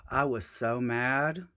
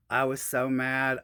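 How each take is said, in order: First: Sigh, then "I was so mad" slowly; weary sigh. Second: Said in the usual way. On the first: Real, not acted. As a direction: exhale first, let it drag out.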